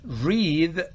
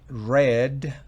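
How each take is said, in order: First: The word does not sound like 'red'. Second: The word sounds exactly like 'red'. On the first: It is the infinitive 'to read'. "si decimos read, significa leer" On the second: It is the past participle 'read'. "Se pronuncia igual a red de rojo"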